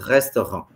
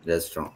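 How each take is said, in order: First: The R is a French throat R. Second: The R is an English tongue R. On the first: "So in French, we'll do the same thing, but with an epiglottal R" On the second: "English में हम लोग कैसे बोलते हैं?"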